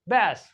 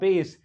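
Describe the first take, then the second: First: The vowel sounds like in 'cat'. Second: The vowel sounds like in 'base'. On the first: It refers to a fish. "अगर fish की बात कर रहे हो तो इसको पढ़ा जाएगा बैस" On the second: It refers to low-pitched music. "अगर म्यूजिक की बात हो रही है तो इसको पढ़ा जाएगा बेस"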